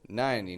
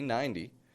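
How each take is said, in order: First: The T is dropped and the N is short. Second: The T is said as a quick flap. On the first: "We do this with the number ninety" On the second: "you can give it a flap T"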